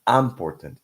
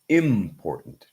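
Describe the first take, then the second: First: The middle t is fully released. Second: The middle t is a glottal stop. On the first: The speaker calls it wrong. "It's not important" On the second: The speaker calls it right. "important has a glottal stop"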